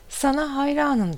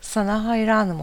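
First: High, mildly shouted praise; storyteller's raised call; narrated shout. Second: Echo, a little less high; mild raised echo; echoed answer. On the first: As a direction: call it out high, without much force. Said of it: "diye bağırıyor". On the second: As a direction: answer back as a slightly softened echo of the call. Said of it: "Gelen cevap". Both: A narrator's reading.

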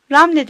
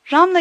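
First: Ramle ending in "e"; "Ramle", last vowel e, not a; alternative pronunciation. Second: Ramla ending in an open "a"; "Ramla", last vowel a, not e; Hebrew pronunciation. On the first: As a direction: say "Ramle" with a final eh. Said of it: "Ramle demeye devam etmektedirler". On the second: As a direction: say "Ramla" with a final ah. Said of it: "İbranice söyleyiş olan Ramla yerine". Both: Shown as a demonstration.

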